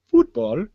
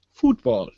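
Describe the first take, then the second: First: Football said with a rising end; Football dito subindo no fim; football, the other way. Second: Football said short and falling; Football dito caindo no fim; football, one way. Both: Shown as a demonstration. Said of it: "I like saying football better than football".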